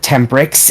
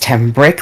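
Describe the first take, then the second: First: The name ends with an added s sound. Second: The name ends without an added s sound. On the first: This is how other people say the name. The speaker calls it wrong. "I don't know why everybody pronounces it Tembricks" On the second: This is how the name is really said. The speaker calls it right. "It's Tembrick, like a brick in the wall"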